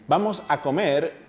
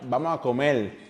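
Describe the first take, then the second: First: It is said in a standard Spanish accent. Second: It is said in a Puerto Rican accent.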